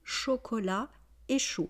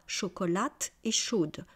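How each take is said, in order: First: The final T and D sounds are silent. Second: The final T and D sounds are pronounced. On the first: The speaker calls it right. "On dit chocolat et chaud" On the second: The speaker calls it wrong. "on ne dit pas chocolate et chaude"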